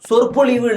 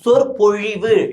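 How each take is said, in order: First: The middle consonant is a plain l sound. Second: The middle consonant is a retroflex zh sound. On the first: The speaker calls it wrong. "சொற்பொழிவு இல்ல" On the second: The speaker calls it right. "ழகரம் சிறப்பு ழா வராதா?"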